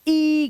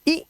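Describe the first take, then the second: First: The vowel is long. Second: The vowel is short. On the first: "long vowel sound यानी कि ई की आवाज" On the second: "short vowel sound यानी कि ई की आवाज"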